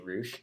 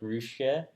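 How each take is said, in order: First: The name is said in an English-style way. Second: The name is said in a Japanese-style way. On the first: The speaker calls it wrong. "that's not how it's actually pronounced" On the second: The speaker calls it right. "It's like Ruche"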